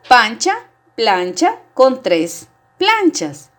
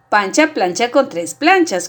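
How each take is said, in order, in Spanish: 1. Se dice a un ritmo normal, más lento. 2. Se dice a un ritmo más rápido. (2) "Ahora más rápido"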